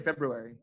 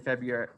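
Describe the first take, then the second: First: The word is said carefully with every sound. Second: The word is said fast with sounds dropped. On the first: "I've got myself to say February" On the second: "when I say it fast enough, I usually say February"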